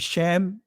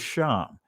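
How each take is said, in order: First: The word is said with an 'eh' vowel. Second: The word is said with an 'ah' vowel. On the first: This is the modern Israeli form. "which is the Israeli pronunciation of it" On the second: This is the ancient Hebrew form. "but the ancient Hebrew is Sham"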